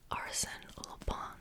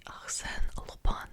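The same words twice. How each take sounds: First: Arsène Lupin said the English way, ARS-en LOO-pin, in a whisper; Arsène Lupin read plainly in English, no French sounds; anglicized name. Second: Arsène Lupin said as ar-SEN-uh loo-PAN with nasal French vowels, whispered; a careful, proud attempt at French Arsène Lupin; French pronunciation. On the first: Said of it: "My French is not the best". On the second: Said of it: "that's my best French pronunciation". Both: Shown as a demonstration.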